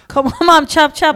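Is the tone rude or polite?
rude. It is said in a rude, demanding tone.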